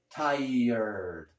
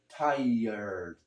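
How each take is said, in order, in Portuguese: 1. O final soa como 'erd', com o r por último. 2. O final soa como 'erd', com o r por último.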